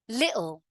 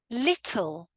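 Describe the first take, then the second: First: The T is cut off by a brief catch. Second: The T is clearly and fully pronounced. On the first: It sounds informal. "now let's look at the other way" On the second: It sounds very correct. "pronounce all of the words with a fully emphasized T"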